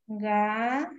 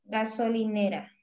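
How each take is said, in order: First: Gasolinera as ga, so, li, ne, ra with long gaps; divided into syllables. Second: Said in the usual way. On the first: Shown as a demonstration. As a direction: pause after every syllable of gasolinera. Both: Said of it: "la última nos debió quedar".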